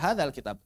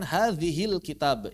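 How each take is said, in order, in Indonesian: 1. Kedua kata dihubungkan dengan vokal 'a'. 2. Kedua kata dihubungkan dengan vokal 'i'. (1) "harusnya hadha" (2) "ini lahan"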